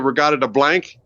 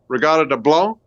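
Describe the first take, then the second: First: The title is pronounced in an English way. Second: The title is pronounced in a French way. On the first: "it could be Regatta de Blanc in English" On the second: "a little bit Frenchish"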